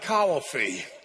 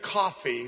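First: Coffee is drawn out Southern-style into three syllables. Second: Coffee is said in a plain neutral accent. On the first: "You get like three syllables out of it" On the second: "they don't drink coffee"

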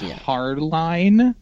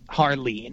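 First: The last syllable rhymes with 'line'. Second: The last syllable rhymes with 'lean'. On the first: The speaker calls it wrong. "so you'd think it was Harline" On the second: The speaker calls it right. "but it's Harleen"

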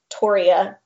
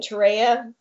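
First: The start sounds like the surname Torrey. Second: The start does not sound like Torrey. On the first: The speaker calls it right. "the correct pronunciation is Torreya because the tree is named after John Torrey" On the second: The speaker calls it wrong. "I grew up saying Torreya because that's what I learned"

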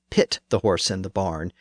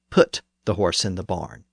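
First: The verb is said with an 'i' vowel. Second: The verb is said with a 'u' vowel. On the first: It reflects a northern dialect. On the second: It reflects a southern dialect.

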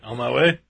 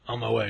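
First: The voice rises at the end. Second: The voice falls at the end.

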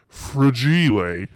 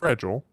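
First: It is said with a put-on French accent. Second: It is said with a plain English accent.

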